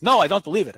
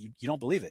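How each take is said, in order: First: Louder, higher mock irate insistence; the skeptic digging in angrily. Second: Much softer, calm mirrored question; soft echo. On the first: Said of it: "He's irate". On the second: Shown as a demonstration. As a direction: hand his words back gently. Echoing the man's words back.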